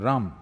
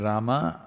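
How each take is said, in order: First: The final syllable is cut off, North Indian style. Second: The final syllable is fully pronounced.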